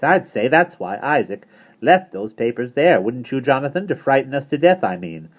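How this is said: It is read in a put-on character voice.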